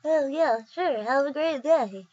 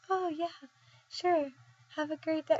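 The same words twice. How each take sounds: First: Higher, drawn-out clerk voice; put-on character voice with swooping pitch; Rite Aid guy impression. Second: High, soft, compliant voice; small, high voice of someone under a spell; persuaded clerk. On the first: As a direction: give the sign-off in the store guy's goofy voice. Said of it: "I love that guy's voice so much". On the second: Acted. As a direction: agree softly in a higher pitch. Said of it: "And then be like".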